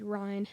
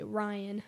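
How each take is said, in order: First: "Ryan" squeezed into one syllable, rhyming with line; one-syllable Ryne. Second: "Ryan" in two clear syllables, RY-an. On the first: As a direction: run "Ryan" together as RYNE. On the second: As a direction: split "Ryan" into RY and an. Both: Retold or imitated. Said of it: "and then you say".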